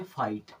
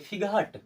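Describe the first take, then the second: First: The g and h sounds are left silent. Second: The g and h sounds are pronounced aloud. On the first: The speaker calls it right. "F I जी एच T को अब पढ़ेंगे फाइट।" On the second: The speaker calls it wrong. "फिगहट नहीं, जी और एच दोनों यहां से खत्म।"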